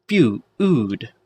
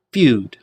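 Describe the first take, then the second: First: "feud" drawn out in pieces, few-ood; sounded-out word. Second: Said in the usual way. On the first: Shown as a demonstration. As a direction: stretch and split "feud" to show its u. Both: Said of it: "the u in the feud".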